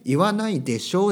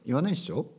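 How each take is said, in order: First: The ending is pronounced fully as desho. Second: The ending is contracted to a short ssho. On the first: "言わないでしょじゃなくて" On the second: "言わないっしょとか"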